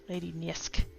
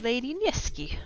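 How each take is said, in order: First: The name ends with little 'ee' sound. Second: The name ends with a clear 'ee' sound. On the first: The speaker calls it right. "I think there's less E sound on the end" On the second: The speaker calls it wrong. "I'm probably butchering that pronunciation"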